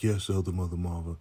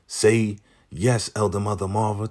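First: Softer, subdued mock obedience; imitated meek compliance. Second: Raised-pitch mock order; imitated command. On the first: Lacey obeying the order, imitated subdued reply. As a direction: answer softly, as if giving in. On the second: Zane telling Lacey how to answer, imitated command. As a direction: prompt her firmly, pitch lifted.

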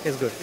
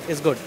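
No difference in how they are said.

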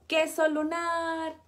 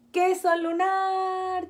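First: Said in the usual way. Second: Loud, slow, stretched-out cheer; shouted cheer. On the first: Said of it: "Dice, digan". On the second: Acted. Family shouting for the moon photo, loud slow cheer. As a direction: everyone yells it for the photo. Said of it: "Todos gritan".

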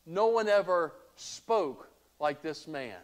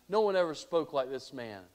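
First: Slow, hushed wonder at Jesus; officers' awed reply. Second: Said in the usual way. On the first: Acted. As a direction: let the words hang in amazement. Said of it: "And they said this".

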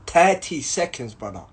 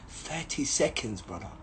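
First: Said in the usual way. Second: Quiet, slow scornful repeat; mocking under breath. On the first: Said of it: "repeated again at normal level". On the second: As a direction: mutter it back with contempt. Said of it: "repeating the officer's words, mocking".

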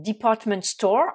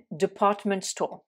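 First: DEPARTMENT STORE without r, "di-PAHT-ment staw"; British "department store", r left silent; British pronunciation. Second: DEPARTMENT STORE in American accent, r sounded; slow American "department store" with r's. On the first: Teacher modelling for learners, British department store pronunciation. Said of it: "en anglais britannique". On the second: Teacher contrasting for learners, American accent on department store. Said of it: "ou alors accent américain". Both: Shown as a demonstration.

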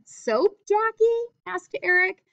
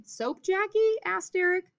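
First: Jackie rising high and slow on the question; high surprised question, tag kept in the same breath; high questioning read. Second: "Soap Jackie?" pitched high as a question; teacher voicing Eric's question, pitched high; high questioning read. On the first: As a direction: read "Soap Jackie?" as a high-pitched question, "asked Eric" still high. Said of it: "that's one sentence". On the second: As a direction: ask it up high then tag "asked Eric". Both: Shown as a demonstration.

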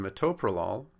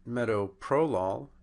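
First: Metoprolol said me-TOE-pro-lol; stress on second syllable. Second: Metoprolol said MET-o-PRO-lol; stress on first syllable. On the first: Lecturer showing where accent should be, metoprolol stressed on second syllable. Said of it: "it's on the second syllable". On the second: Lecturer showing the mispronunciation, metoprolol stressed on first syllable. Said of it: "on the first syllable". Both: Shown as a demonstration.

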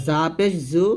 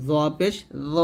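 First: Light buzzing জা and জু; thin Z. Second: Thick, rounded জ at upper teeth; heavy lisped Z. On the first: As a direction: keep জু thin and sharp. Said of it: "পাতলা করে". (পাতলা করে জা, জু) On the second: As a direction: fill the mouth on জ. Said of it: "এরকম মোটো করে". (মোটা করে জ) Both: Shown as a demonstration.

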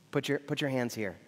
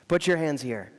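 First: Soft and lower, near a hushed murmur; tender invitation. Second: Gentle repeat. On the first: Jesus inviting doubting Thomas to touch, hushed and tender. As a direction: invite him in gently, barely above a hush. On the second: Jesus repeating his invitation to Thomas, lower pitch, full level. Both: Retold or imitated. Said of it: "you can just hear the smile in his eyes".

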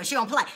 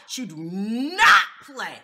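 First: Said in the usual way. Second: "She do not play." said slowly and louder, each word hit; slow emphatic. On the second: Shown as a demonstration. Repeating to the audience that she does not play, slowly and pointedly. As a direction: spell out "do not" word by word with weight.

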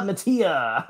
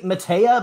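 First: "Matea" said muh-TEE-uh, softer; alternative pronunciation. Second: "Matea" said muh-TAY-uh, rising; unsure pronunciation. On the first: Host's second guess at a singer's name, "[name]" as muh-TEE-uh. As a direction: try "Matea" with TEE in the middle, softly. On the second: Host guessing at a singer's name, "[name]" as muh-TAY-uh, unsure. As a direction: try "Matea" with a questioning TAY in the middle. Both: Real, not acted. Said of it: "I don't know".

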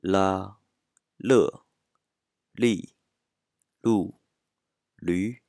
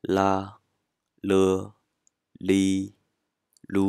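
First: "ら、る、り、る、る" level first, then falling, last る rising; following marked tones. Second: "ら、る、り、る" loud, long and level; first tone. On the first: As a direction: glide loudly through a different tone on each of ら、る、り、る、る. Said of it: "これに従って発音すると". (「ら、る、り、る、る」を声調に従って上げ下げして) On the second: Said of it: "全部一声だと". (「ら、る、り、る」を一声で大きく平らに) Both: Shown as a demonstration.

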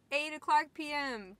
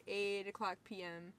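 First: "Eight o'clock P M" repeated higher and louder; emphatic repeat. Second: Said in the usual way. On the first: Real, not acted. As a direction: hit "Eight" high and hard, then step down.

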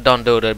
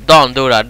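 First: Said in the usual way. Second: Warning yell. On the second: Real, not acted.

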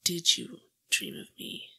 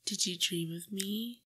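First: Louder, stress on did, falling end; insistent repeat. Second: Said in the usual way. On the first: Acted. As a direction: hit did and press the question. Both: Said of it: "No, I said".

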